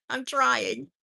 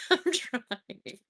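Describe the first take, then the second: First: Said in the usual way. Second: Through a chuckle; laughing. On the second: Real, not acted. Host laughing at her power washer joke, giggling. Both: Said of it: "laughs about own joke".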